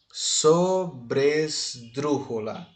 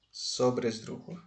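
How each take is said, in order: First: "sobresdrújula" very slow, each syllable set apart. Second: Said in the usual way. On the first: Shown as a demonstration. Teacher classifying the word for students, syllable by syllable. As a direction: sound out "sobresdrújula" slowly in separate syllables.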